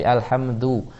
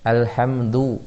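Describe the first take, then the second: The two takes are said the same way.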